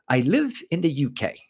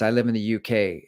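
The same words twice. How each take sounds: First: It is said in a put-on British accent. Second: It is said in the speaker's ordinary American accent.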